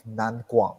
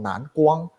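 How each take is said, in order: First: The name is said with an English pronunciation. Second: The name is said with a Mandarin pronunciation. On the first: "our company is by the name of" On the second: "in Chinese it's called"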